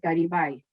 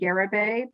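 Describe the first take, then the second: First: The name is pronounced in a Spanish way. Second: The name is pronounced in an anglicized way. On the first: This is the name's original pronunciation. "the real pronunciation is Garibay" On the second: This is how the family says it. "we pronounce it Garibay"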